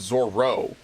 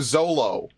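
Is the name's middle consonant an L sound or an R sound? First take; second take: R; L. First: The middle consonant is an R sound. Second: The middle consonant is an L sound. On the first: The speaker calls it right. "which is the correct way of saying his name" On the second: The speaker calls it wrong. "they call him Zolo"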